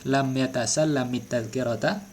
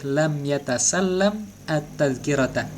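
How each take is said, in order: First: The verb ends in -it, linking to the next word. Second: The verb ends in -am, then a separate at-. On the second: "boleh kita memisah"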